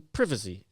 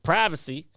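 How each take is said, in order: First: It is said with a British accent. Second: It is said with an American accent.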